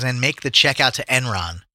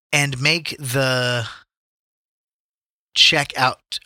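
First: Said in the usual way. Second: Halting slow read. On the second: Shown as a demonstration. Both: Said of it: "Oh, it says".

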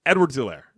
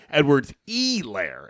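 First: Said in the usual way. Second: Slow, mocking "Elaire" with the long first E drawn out and leaned on; overemphasized name. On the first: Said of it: "It's Edwards Hilaire". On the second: Mocking the announcer's careful take on the name, slow. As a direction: stretch the E in "Elaire" as a mock of the announcer. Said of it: "And he went".

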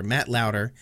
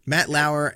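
First: Lauder said LAO-der, with a clear D; corrected pronunciation. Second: Lauer said LAO-er, with no D sound; mistaken pronunciation. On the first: Friend correcting the passenger's name, corrected pronunciation. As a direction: put a D in the middle of "Lauder". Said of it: "not Louder". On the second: Friend misnaming a car passenger, mistaken pronunciation. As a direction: say "Lauer" without any D. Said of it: "Not Lauer". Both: Real, not acted.

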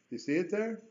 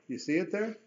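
Both takes have the same delivery.

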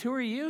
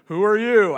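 First: Said in the usual way. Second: Booming, much louder divine challenge; James Earl Jones God voice. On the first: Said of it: "When Moses says". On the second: Retold or imitated. God booming back at Moses in mock James Earl Jones voice. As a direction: thunder it like an offended God. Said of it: "I can't do the James Earl Jones voice".

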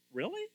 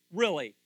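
First: "Really?" high, with a steep rise; questioning Really. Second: "Really?" loud, with a firm fall; challenging Really. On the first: Preacher testing churchgoers who say they are ready, "Really?" rising in question. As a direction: ask "Really?" sliding sharply up in doubt. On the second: Preacher challenging churchgoers who say they are ready, "Really?" falling hard. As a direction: hit "Really?" hard and drop the pitch. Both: Acted.

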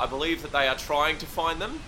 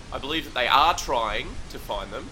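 First: Said in the usual way. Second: "are" leaned on in mid-sentence; stress on ARE. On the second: Acted. Reporter unsure of police efforts, stressing "are". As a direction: insist on the word "are". Repeats claim, stressing the auxiliary.

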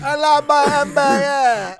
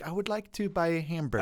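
First: Put-on high, loud, mangled French accent; hammed-up French pupil failing at English; thick French accent. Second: Careful model American pronunciation, higher pitch; lightly voiced accent coach; dialect coach. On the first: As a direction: shout it slowly in an absurd French accent. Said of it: "get rid of his French accent". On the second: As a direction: model the sentence neatly for a pupil. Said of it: "And she's like".

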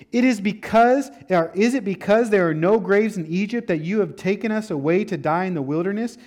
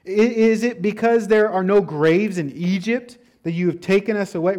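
First: Louder, higher complaint; complaining Israelites. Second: Louder, higher complaining retold. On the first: Acted. Israelites complaining to Moses about dying, raised voice. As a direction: whine at Moses like frightened people. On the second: Preacher voicing Israelites complaining to Moses, louder whine. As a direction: whine it like scared grumblers. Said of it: "They start to complain".

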